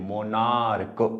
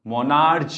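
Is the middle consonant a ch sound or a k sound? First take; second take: k sound; ch sound. First: The ending is said with a k sound. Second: The ending is said with a ch sound. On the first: The speaker calls it right. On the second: The speaker calls it wrong. "मोनार्च नाही येते"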